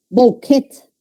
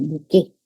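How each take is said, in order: First: "Bouquet" said the French way as /boket/; French original. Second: "bouquet" said as Spanish /buke/; "bouquet" the castellanized way, ending in a plain e; Spanish adaptation. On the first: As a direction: give "Bouquet" its foreign original sound. ("Bouquet" con pronunciación francesa original) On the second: ("bouquet" castellanizado, pronunciado /buke/) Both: Shown as a demonstration. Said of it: "Se ha castellanizado como bouquet".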